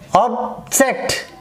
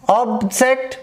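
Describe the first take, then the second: First: The stress is on the first syllable. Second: The stress is on the second syllable. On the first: The word is used as a noun. "the first syllable is stressed there when they are playing their role as in noun" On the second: The word is used as a verb. "here the second syllable is trace here"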